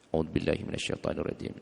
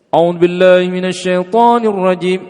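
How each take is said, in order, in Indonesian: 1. Frasa ini dibaca pelan. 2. Frasa ini dibaca keras. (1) "Jadi bacaannya disirkan" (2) "Wah, beda ini. Harusnya dibaca sir"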